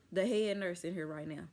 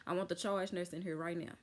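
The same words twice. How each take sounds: First: Says head nurse by mistake; wrong name slip. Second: Says charge nurse this time, firm; corrected title. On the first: Patient demanding staff, naming the head nurse by mistake. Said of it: "My mind went blank on, uh, the charge nurse". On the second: Patient correcting herself to demand the charge nurse, firm. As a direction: fix the slip: I want the charge nurse in here right now. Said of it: "uh, the charge nurse". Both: Retold or imitated.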